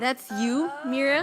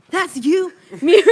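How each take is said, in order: First: It is said at a normal reading volume. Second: It is screamed loudly with high energy.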